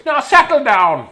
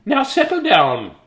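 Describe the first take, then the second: First: High, loud, slow order; stern teacher again. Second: High, loud, slow command; stern teacher. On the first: Correcting the sweet voice, still a stern teacher. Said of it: "That's not a sweet voice, is it?". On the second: Reading aloud to a rowdy class, a stern teacher's command. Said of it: "Oh, that's not a sweet voice". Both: Acted. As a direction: bark it at the class.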